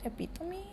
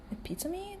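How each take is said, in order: First: "Epitome?" repeated as uh-PIT-uh-mee, softly with a high rising question; unsure pronunciation. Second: "Epitome?" tried as uh-PIT-uh-mee, asked softly with a high rising question; unsure pronunciation. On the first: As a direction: try "Epitome?" once more, quiet and unsure of the sound. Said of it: "I don't know how you say that". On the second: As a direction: test the word "Epitome?" quietly as a question, unsure how it sounds. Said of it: "That's how you say it?". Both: Real, not acted.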